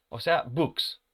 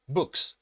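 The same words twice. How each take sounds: First: "books" ending in a voiceless S hiss; plural s sound. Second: "Books" with a clear voiceless S at the end; plural s sound. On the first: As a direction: finish "books" on a sharp S. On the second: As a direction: let the S hiss after the K. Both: Shown as a demonstration. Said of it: "esta S se va a pronunciar con este sonido".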